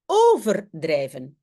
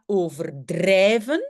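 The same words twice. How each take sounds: First: The stress is on the first syllable. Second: The stress is on the third syllable. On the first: To drift or overflow. "l'accent est sur le O" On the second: To exaggerate. "l'accent n'est pas sur over"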